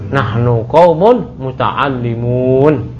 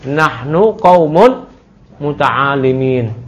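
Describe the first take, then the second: First: The last word ends with an -un sound. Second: The last word ends with an -in sound. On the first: The speaker calls it right. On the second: The speaker calls it wrong. "Di mana salahnya? Muta'allimin"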